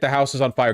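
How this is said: It is yelled in a panicked way.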